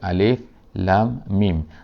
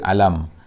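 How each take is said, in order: First: Each letter name is said separately. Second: The letters are run together as one word. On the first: The speaker calls it right. "kita akan baca alif lam mim" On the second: The speaker calls it wrong. "kita tak baca alam"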